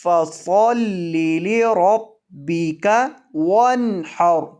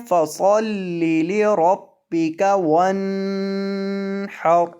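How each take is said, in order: First: Slow, with the nun of وَانْحَرْ clean and not nasal; without ghunna. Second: وَانْحَرْ recited with a nasal hum held on the nun; wrong nasal ghunna. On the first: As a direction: recite وَانْحَرْ with no hum on the nun. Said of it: "اس کو گنے کے بغیر پڑھنا ہے". (وَانْحَرْ بغیر غنہ کے صاف پڑھیں) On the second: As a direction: demo the mistake, humming through the nun in وَانْحَرْ. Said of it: "اس طرح پڑھ دیتے ہیں". (وَانْحَرْ میں نون پر غنہ کر کے غلط پڑھیں) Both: Shown as a demonstration.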